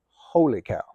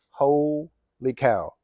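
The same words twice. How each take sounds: First: Said in the usual way. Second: "Holy" stretched, pause, then "cow"; slow, separated amazement; drawn-out exclamation. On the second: Real, not acted. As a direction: split it in two with a wide pause. Exclaims it twice, first split apart.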